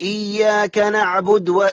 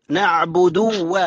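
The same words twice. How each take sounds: First: نعبد cut to vowelless d before و; dropped damma. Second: Slow نعبد with clear u before و; damma on dal. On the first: Retold or imitated. Teacher mimics a slip, no u after d in نعبد. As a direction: run the d of نعبد straight into و. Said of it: "الدال مضمومة تفرق بينها وبين الواو". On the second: Shown as a demonstration. Teacher corrects the slip, clear u on d of نعبد. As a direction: separate نعبد from و with a short u. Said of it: "الدال مضمومة".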